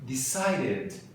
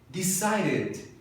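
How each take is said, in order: No difference in how they are said.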